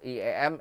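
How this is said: The letter names sound Indonesian. "in Indonesia"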